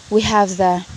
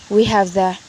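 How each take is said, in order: Both takes have the same delivery.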